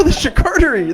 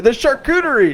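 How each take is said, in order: First: "charcuterie" as shuh-KAR-tery, pitched high; contrasted pronunciation. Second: "charcuterie" as shar-KOO-tery, pitched high; contrasted pronunciation. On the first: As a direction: say "charcuterie" with KAR stressed, higher. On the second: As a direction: say "charcuterie" with a long OO, higher. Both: Shown as a demonstration. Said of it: "How you talk?".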